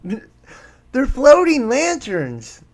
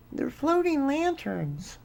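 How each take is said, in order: First: Slow, higher and louder sarcastic "They're floating lanterns."; mocking skeptic. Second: Higher and softer, airy sarcastic "They're floating lanterns."; mock dismissal. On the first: Host mocking the debunkers who dismiss the fireballs, sarcastic. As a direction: drag it out like a smug debunker. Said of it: "this is why people will believe any damn thing". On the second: Host sneering at people who call them lanterns, soft mock. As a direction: toss it off lightly as a sneer. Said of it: "have you noticed that men's hearts will fail them".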